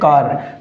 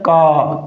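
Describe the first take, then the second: First: The final r sound is pronounced. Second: The final r sound is dropped. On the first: "हम इसे क्या बोलते हैं" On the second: "non रोटिक असेंट अर्थात दोस्तों British असेंट के अंदर ... इस आर की साउंड नहीं बोली जाती"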